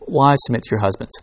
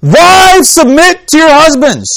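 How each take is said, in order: First: "Wives, submit to your husbands" said quietly in passing; unemphasized. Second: Loud, high, drawn-out "Wives, submit to your husbands"; "Wives, submit to your husbands" proclaimed high and loud; emphatic booming emphasis. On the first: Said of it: "They put the emphasis on a completely different syllable". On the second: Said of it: "what we tend to hear is". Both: Shown as a demonstration.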